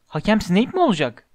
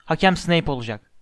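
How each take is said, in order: First: Higher-pitched, taken-aback question; incredulous question. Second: Said in the usual way. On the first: A narrator's reading. Player reacting to bad referee news, incredulous. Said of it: "Ağzındaki çamurları püskürterek".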